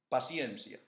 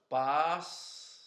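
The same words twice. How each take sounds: First: The word is said fast. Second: The word is said slowly.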